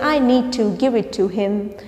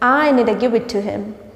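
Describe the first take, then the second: First: 'Need to' is pronounced fully, both words clear. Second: 'Need to' is reduced to 'needa'. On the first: "instead of saying" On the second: "you can say"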